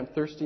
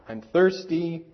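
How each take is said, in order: First: It is said in a sweet, polite voice. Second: It is said in a whining, complaining voice. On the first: The child is asking politely. "Sometimes in a very nice way" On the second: The child is complaining. "with a bit of a whine in your voice"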